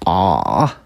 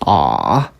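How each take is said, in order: Both takes have the same delivery.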